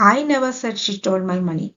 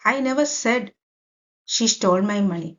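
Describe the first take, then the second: First: The stress is on the word I. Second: The stress is on the word said. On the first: Someone else might have said it, not me. "ഇവിടെ ഐക്ക് ഞാൻ stress കൊടുത്തിരിക്കുകയാണ്" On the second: It may have been thought but not said aloud. "അപ്പൊ ഇവിടെ Z"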